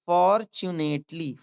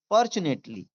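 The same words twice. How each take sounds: First: "fortunately" slowly, for, tu, nate, ly; syllable by syllable. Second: Said in the usual way. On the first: Shown as a demonstration. Teacher demonstrating to learners, syllable by syllable. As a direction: stretch each part of "fortunately". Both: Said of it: "सही रूप आया है".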